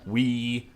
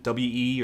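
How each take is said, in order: First: It is spoken as the single word 'we'. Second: It is spoken as two separate letter names. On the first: "or just we?" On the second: "how do you even pronounce that? Is it, is it W E"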